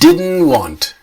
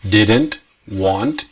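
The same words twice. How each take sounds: First: The two words run together as one. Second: The two words are said separately. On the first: "but the sound is one word" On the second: "Two words, didn't, want"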